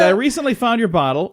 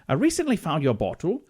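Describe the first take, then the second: First: It is said in the speaker's normal accent. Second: It is said in a put-on British accent.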